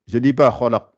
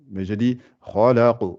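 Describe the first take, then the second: First: The final q is thin and flat. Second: The final q is full and bouncing. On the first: The speaker calls it wrong. "Je dis pas" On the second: The speaker calls it right. "elle est gonflée en même temps"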